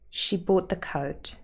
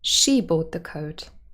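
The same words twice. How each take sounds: First: The stress falls on the word coat. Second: The stress falls on the word she. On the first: "In the unmarked version, coat is the last content word and would be stressed" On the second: "We could even move the stress to she"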